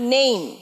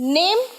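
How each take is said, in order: First: The vowel glides from 'e' to 'ee'. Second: The vowel is a short plain 'e' sound. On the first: The speaker calls it right. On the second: The speaker calls it wrong.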